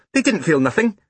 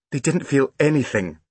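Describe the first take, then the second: First: Put-on high child's voice on "nothing"; matter-of-fact small boy. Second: "anything" stressed as the correction, falling; correcting. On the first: Small boy arguing about boiled eggs, "nothing" said high. Boy's ungrammatical line, sister corrects it. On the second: Big sister fixing brother's grammar, correcting with "anything". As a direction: correct him firmly, landing on "anything". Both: A narrator's reading.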